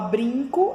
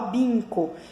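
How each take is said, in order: First: The word begins with a B followed by R. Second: The word begins with B without an R. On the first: The speaker calls it right. "Ao invés de falar brinco" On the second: The speaker calls it wrong. "ela fala binco"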